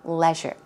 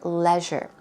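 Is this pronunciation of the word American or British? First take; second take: British; British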